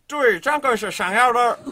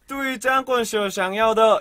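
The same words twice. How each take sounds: First: It is spoken in a Beijing accent. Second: It is spoken in a Shanghai accent. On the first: "북경 발음은" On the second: "이게 중국 샹하이 발음이고"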